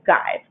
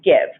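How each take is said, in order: First: The vowel is a long i sound. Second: The vowel is a short i sound. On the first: The speaker calls it wrong. "because E typically makes I say a long I sound, I would read that as guive" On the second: The speaker calls it right. "But we know that those words are"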